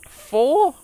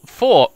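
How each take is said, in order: First: High, playful squeaky four; silly high question. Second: Loud, falling emphatic four; firm declaration. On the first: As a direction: play with the word four. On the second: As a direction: announce four with mock gravity. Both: Pretend. Repeating number in mock voices.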